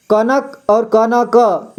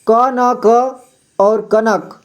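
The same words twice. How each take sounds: First: कनक run together, then क न क spaced out; reverse contrast demo. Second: क न क spaced out, then कनक run together; contrast demo. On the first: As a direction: say कनक as one word, then क न क apart. (कनक जोड़कर फिर क न क अलग-अलग) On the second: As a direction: say क न क apart, then कनक quickly as one word. (क न क अलग और कनक जोड़कर, फर्क दिखाते हुए) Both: Shown as a demonstration. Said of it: "इसमें अंतर है".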